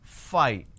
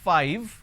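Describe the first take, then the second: First: It ends without a lip-bitten v sound. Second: It ends with a v, lower lip bitten. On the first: The speaker calls it wrong. "lot of us mispronounce this as five" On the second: The speaker calls it right. "Instead of saying five"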